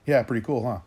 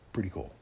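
First: Imitating a breezy girl, louder; a hammed-up carefree reply to the question; mock teen shrugging it off; mocking her reply. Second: A dry, quieter echo of her words; sarcastic repeat of the reply; sarcastic deadpan echo. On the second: Retold or imitated. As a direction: repeat it back deadpan and unimpressed.

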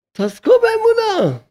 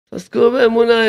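First: High, slow exhortation. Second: Said in the usual way. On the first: Acted. Rabbi urging listeners toward faith, high and slow.

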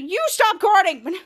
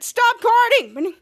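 First: "You" thrown back, "guarding" drawn out; slow retort with "guarding" stretched and rising; mock retort. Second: "guarding" drawn out high and loud; slow, raised complaint stretching "guarding"; mock quarrel shout. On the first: [name] answering [name]'s scolding, drawn-out comeback. Acted retort in same quarrel. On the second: [name] scolding [name] in laser tag, loud drawn-out complaint.

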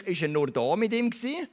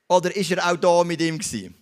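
First: Higher voice, climbing to an open question after "nur da"; questioning tune. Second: Louder, leaning on "auch da", then falling; emphatic alternative. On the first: Preacher putting a question to the listener, high and questioning. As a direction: lift "nur da mit ihm gewesen" into a rising question. Rhetorical question, first of two. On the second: Preacher answering their own question with an alternative, loud and emphatic. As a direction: hit "auch da" hard and let the question fall. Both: Real, not acted.

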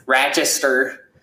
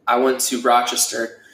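First: Slow, nasal upstate New York "Rochester"; a local's drawn-out "Rochester"; Rochester accent. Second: Said in the usual way. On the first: Shown as a demonstration. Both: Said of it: "that's my best impression of an accent".

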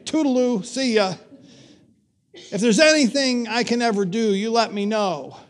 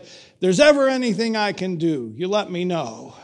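First: Mock brush-off. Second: Said in the usual way. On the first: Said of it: "That's like saying". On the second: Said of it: "he turned towards his car and said".

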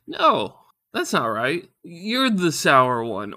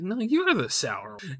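First: Loud high "No", then slow insistence; flustered comeback. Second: Higher, slow taunting imitation; "your mom" retort. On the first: Retold or imitated. Husband's lame comeback to wife, loud and slow. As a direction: hit back with drawn-out "You're the sour one". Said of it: "I kinda stumble with my words". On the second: Husband retorting like "your mom", higher mocking voice. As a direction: throw it back as a childish comeback. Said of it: "like, your mom kind of thing".

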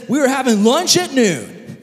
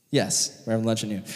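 First: High, loud mock-grand announcement; hammed-up jubilant call; excited proclamation. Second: Said in the usual way. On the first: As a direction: declare it like thrilling news.

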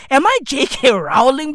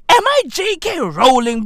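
First: Rowling rhyming its first syllable with "cow"; Rowling with the vowel of "now"; Rowling as row-ling. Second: Rowling said just like "rolling"; Rowling with the vowel of "go", high and loud. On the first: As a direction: say Rowling with an "ow" as in "howl". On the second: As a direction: say Rowling with a long "oh". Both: Shown as a demonstration. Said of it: "Is it rolling, not Rowling".

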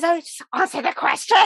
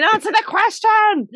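First: Exasperated demand. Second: Higher, louder, pleading demand; higher and louder exasperated demand; exasperated plea. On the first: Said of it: "she goes". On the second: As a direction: plead it in frustration. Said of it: "You're thinking". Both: Retold or imitated.

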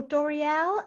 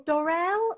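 First: "Doriel" said in three syllables, Dor-ee-el; three-syllable pronunciation. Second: "Dorrell" said in two syllables, Dor-rell; two-syllable pronunciation. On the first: Host offers another surname reading, "Doriel" as three syllables. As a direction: say "Doriel" with an ee in the middle. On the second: Host unsure of the author's surname, "Dorrell" as two syllables. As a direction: say "Dorrell" without an ee in the middle. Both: Real, not acted. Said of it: "Dorrell or Doriel".

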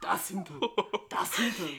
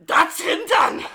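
First: Lower, toned-down mock-German voice; understated German accent, half amused; put-on German voice. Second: Loud, high mock-German bark; over-the-top German exclamation; put-on German voice. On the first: Shown as a demonstration. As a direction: say it with a comic German accent, contained. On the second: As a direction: shout it in a hammed-up German accent. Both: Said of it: "this voice when I talk German".

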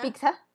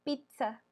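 First: "pizza" as "PIK-sa", with a k, rising; mispronounced pizza. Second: "pizza" with a ts sound, "PIT-sa", softly; correct pronunciation. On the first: Retold or imitated. Checking the mistake a friend described, mispronounced pizza. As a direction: say "pizza" as a questioning "piksa?". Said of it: "Ah, ¿como con C?". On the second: Shown as a demonstration. Correcting a friend on how pizza is said, correct pronunciation. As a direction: say "pizza" carefully as "pitsa". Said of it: "No, se dice pizza".

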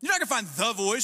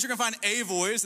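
First: "The" punched before "Voice", higher pitch; stress on THE. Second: "a" said as a full, stressed word. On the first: Pastor mocking the show's title, stressing "The". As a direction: lean hard on "The", as in the only one. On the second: Pastor correcting the show's title, stressing "a". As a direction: lean on "a", as in just one of many. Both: Shown as a demonstration.

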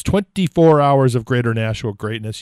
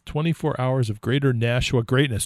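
First: Twenty-four hours of Greater Nashua greatness said louder, each word pressed; announcer punch on "Twenty-four hours of Greater Nashua greatness"; with emphasis. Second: Said in the usual way. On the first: Shown as a demonstration. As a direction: give "greatness" real emphasis like a radio slogan. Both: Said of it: "You gotta say it with emphasis".

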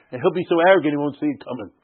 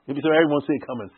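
First: Said in the usual way. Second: Rushed fast repeat of He'll be so arrogant. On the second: Shown as a demonstration. Teacher repeats the line fast to the class. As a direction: rattle it off quickly.

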